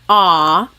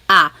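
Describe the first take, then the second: First: The vowel is drawn out like an opera singer. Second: The vowel is spoken plainly with an open mouth. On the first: The speaker calls it wrong. "Not like an opera singer. It's not ah" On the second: The speaker calls it right. "We want it more open"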